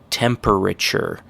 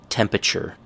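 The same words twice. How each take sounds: First: The word is said with all its syllables. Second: The word is squeezed with a syllable dropped. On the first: "the correct pronunciation is" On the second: "Everybody says"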